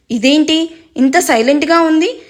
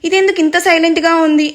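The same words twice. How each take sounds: First: Lightly puzzled, rising question. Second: ఇదెందుకు leaned on, a little higher, puzzled. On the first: Brother puzzled by his sister's silence, mildly confused. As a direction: wonder aloud, a touch confused. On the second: Brother asking again why she is silent, ఇదెందుకు stressed. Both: A narrator's reading. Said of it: "అయోమయంగానే".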